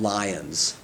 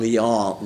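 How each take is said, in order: First: It is pronounced the English way. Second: It is pronounced the French way.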